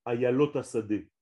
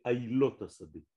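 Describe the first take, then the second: First: Ayalot with the mistaken ya sound; the error Ayalot Asadeh; wrong Ayalot. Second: Ailot said a-i-lot, the right way; correct Ailot. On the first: Teacher quoting a singer's mistake, a wrong Ayalot. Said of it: "Ça veut rien dire". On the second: Teacher giving the song's correct word, a careful Ailot. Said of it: "C'est Ailot Asadeh". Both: Shown as a demonstration.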